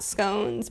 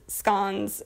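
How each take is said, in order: First: Scones is pronounced the usual American way. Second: Scones is pronounced the British way. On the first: "and not scones" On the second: "I'm the only American that says scones"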